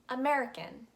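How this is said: It is said with an American accent. "the American pronunciation"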